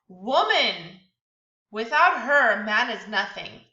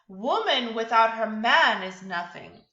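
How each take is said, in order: First: It pauses after "woman" and after "her". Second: It is said as one phrase without pauses.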